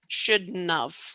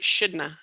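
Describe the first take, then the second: First: It is less reduced and the ending is kept. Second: Sounds are dropped and the ending is cut short. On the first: The speech is more formal. "In a more formal setting, I would still contract, but I would not contract as much" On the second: The speech is fast and informal. "I contracted quite a bit"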